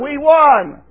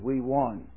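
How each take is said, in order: First: It is said loudly with much energy. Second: It is said quietly with little energy. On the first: The speaker calls it right. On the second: The speaker calls it wrong.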